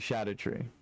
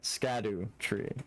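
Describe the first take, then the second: First: The word begins with an sh sound. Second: The word begins with an sk sound. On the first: The speaker calls it right. "the S C is pronounced as a C as a S H" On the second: The speaker calls it wrong. "It's not Scadu tree"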